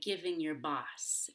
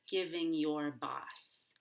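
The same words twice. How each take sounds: First: The small words are reduced and said quickly. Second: The small words are fully pronounced and said slowly.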